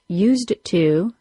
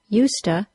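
First: Both words are pronounced fully and separately. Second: The words blend together into a reduced form.

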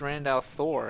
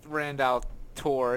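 First: The name begins with a th sound. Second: The name begins with a plain t sound. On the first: The speaker calls it right. "it's Randall Thor" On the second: The speaker calls it wrong. "It's not Randall Tor"

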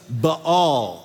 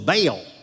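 First: Two vowels are each pronounced separately. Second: The vowel is said as one sound. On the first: The speaker calls it right. "Baal is the diphthong" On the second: The speaker calls it wrong. "a very southern pronunciation of an idol"

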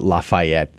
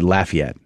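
First: It is said the way outsiders say it. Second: It is said the way locals say it. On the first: The speaker calls it wrong. "It's not Lafayette" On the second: The speaker calls it right. "They say Lafayette"

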